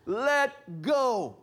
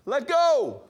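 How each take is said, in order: First: Said in the usual way. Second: Loud, higher call across the boat. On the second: Retold or imitated. Boat driver shouting to Hal on the rope, loud call. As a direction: yell the order to let go.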